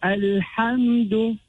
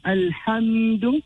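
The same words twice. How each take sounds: First: Alhamdu slow and even, m closed without bounce; clear meem. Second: Alhamdu with the m leaned on and held; over-emphasized meem. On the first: Teacher showing the right way, Alhamdu slow and clear. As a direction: say Alhamdu slowly with a clean, unforced m. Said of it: "will be read clearly". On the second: Teacher showing the error to avoid, Alhamdu with emphasized m. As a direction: overdo the m in Alhamdu. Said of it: "without emphasizing Alhamdu". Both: Shown as a demonstration.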